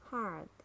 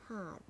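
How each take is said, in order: First: "hard" with a sounded American R; American "hard", curl the R before d; American accent. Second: "hard" with a British silent R; British "hard", said hahd; British accent. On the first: Teacher models hard for learners, American accent. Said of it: "R in American English". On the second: Teacher models hard for learners, British accent. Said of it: "in British English". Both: Shown as a demonstration.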